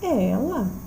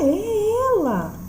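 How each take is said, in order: First: It is said as a question. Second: It is said as a forceful exclamation. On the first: The speaker is asking whether it is her. "Eu estou questionando" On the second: The speaker strongly insists it is her. "Estou afirmando com veemência"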